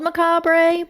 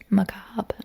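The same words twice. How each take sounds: First: The word is said the way it is spelled. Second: The word is said in its accepted pronunciation. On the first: "spelled macabre" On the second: "but it's pronounced macabre"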